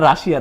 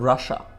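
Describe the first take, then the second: First: The word ends with a 'shia' sound. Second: The word ends with a short 'sha' sound. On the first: The speaker calls it wrong. "এটা রাশিয়া না" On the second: The speaker calls it right. "উচ্চারণ হচ্ছে রাশা"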